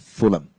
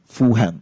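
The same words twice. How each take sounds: First: The middle h sound is left out. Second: The middle h sound is pronounced. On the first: This is the original English form. The speaker calls it right. "instead of Fulham" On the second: This is the local transliterated form. The speaker calls it wrong. "in the Cantonese transliteration, we say it as Fulham"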